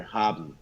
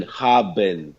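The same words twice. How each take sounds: First: "haben" quicker, the last syllable closed and swallowed; faster natural German. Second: "haben" slowly, both syllables fully sounded; pronounced as written. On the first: Teacher showing how Germans really say it, "haben" quick and swallowed. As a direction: say "haben" softly with the ending swallowed. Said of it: "you would pronounce it faster". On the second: Teacher showing the written form, "haben" fully sounded out. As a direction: say "haben" the way it is spelled. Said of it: "It's written haben". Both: Shown as a demonstration.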